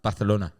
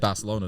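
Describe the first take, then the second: First: The 'c' is said with a lisped 'th' sound. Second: The 'c' is said with a plain 's' sound. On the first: This is how locals say it. "they say it with the list like Bath, Barcelona" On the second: This is how English speakers say it. "You say Barcelona"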